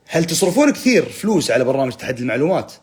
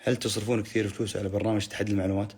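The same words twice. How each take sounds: First: Game-show hype read. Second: Said in the usual way. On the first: Shown as a demonstration. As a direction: announce the comment like a big quiz fact. (نبرة مقدم برنامج مسابقات متحمسة) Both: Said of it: "خليني أقرأ الكومنتات كأنها معلومة".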